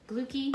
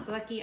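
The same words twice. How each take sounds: First: Glucky with a long OO, like Luke. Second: Short UH in glucky, as in lucky. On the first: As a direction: say glucky as "glooky". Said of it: "say it with the two O's". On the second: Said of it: "like lucky". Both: Shown as a demonstration.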